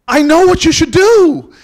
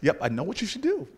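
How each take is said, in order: First: Very loud, high, drawn-out declaration; booming proclamation. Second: Said in the usual way. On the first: Acted. Miss Jones proclaiming her sudden revelation to the narrator, booming. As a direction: belt it out slowly like a revelation. Comic retelling, line repeated at full voice.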